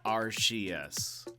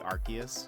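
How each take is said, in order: First: The c is pronounced as an s sound. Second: The c is pronounced as a k sound. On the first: "I've been saying Arceus because in Japanese the announcer guy says Arceus" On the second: "all their C's are actually K, so it should be Arceus"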